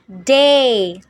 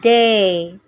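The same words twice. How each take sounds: First: It is said with a standard English diphthong. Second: It is said with a Singlish long monophthong.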